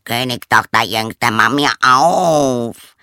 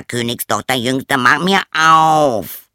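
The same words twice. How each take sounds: First: Loud, slow frog call, rising on Königstochter; drawn-out plea at the door. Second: Insist, stretching every word; frog demanding. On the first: Frog calling a second time at the door, slow and loud. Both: Acted. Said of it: "eine Stimme rief".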